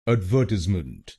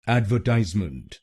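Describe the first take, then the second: First: The stress is on the second syllable. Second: The stress is on the third syllable. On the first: This is the British pronunciation. "आपको दूसरे शब्दांश पर यानी V E R पर जोर डालना है" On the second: This is the American pronunciation. "American pronunciation में हम तीसरे शब्दांश पर यानी टी आई एस ई पर जोर डालेंगे"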